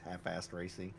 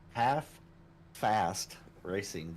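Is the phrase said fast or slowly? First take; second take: fast; slowly. First: The phrase is said quickly, with the words running together. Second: The phrase is said at a normal, careful pace.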